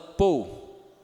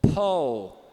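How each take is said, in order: First: Unaspirated p with a closed o-u glide. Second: Aspirated p with an open o vowel glide. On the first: The speaker calls it wrong. "é o jeito que o brasileiro vai falar geralmente" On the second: The speaker calls it right. "não é o, é ó"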